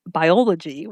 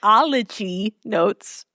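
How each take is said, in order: First: "biology" said awkwardly after a false start; stumbled word. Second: "biology" drawn out slowly, syllable by syllable; slow, over-careful "biology"; careful correction. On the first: Host stumbling on "biology" while reading notes, tongue-tied. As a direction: trip slightly over "biology". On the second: Host retrying the word she can't say, slow and deliberate. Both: Real, not acted. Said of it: "Why the hell I can't say".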